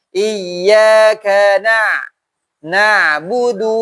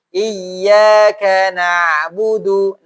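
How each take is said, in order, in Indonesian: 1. Nadanya naik sedikit pada 'na', sehingga kata-katanya terpisah. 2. Nadanya tetap datar dan katanya menyambung. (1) "Maka di situ agak dinaikkan" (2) "kalau misalnya kita datar nih"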